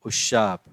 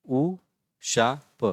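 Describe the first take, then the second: First: Said in the usual way. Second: "उशाप" very slowly in three separate pieces; syllable by syllable. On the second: Shown as a demonstration. Teacher sounding out "उशाप", syllable by syllable. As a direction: break "उशाप" up with pauses between syllables.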